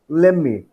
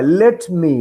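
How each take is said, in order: First: The t of let is not pronounced. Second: The t of let is clearly pronounced.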